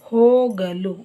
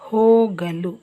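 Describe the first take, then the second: No difference in how they are said.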